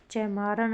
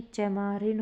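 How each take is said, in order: First: चैमारन ending in "ran"; wrong ending. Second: चैमारिन ending in "rin"; corrected ending. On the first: Teacher showing students the error, चैमारन ending "ran". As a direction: use an a in the last beat of चैमारन. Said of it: "चैमारन नहीं". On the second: Teacher giving students the correction, चैमारिन ending "rin". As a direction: use an i in the last beat of चैमारिन. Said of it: "चैमारिन होगा". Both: Shown as a demonstration.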